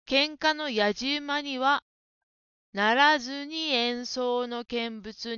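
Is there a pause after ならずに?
no. There is no pause after ならずに. The speaker calls it wrong. "間を取るところが良くないです。"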